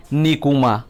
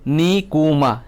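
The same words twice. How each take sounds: First: Said in the usual way. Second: "Nikuma" drawn out as ni, ku, ma; syllable by syllable. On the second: Shown as a demonstration. Teacher counting syllables for students, "Nikuma" in three parts. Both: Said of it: "Nikuma o kaitham kokthor".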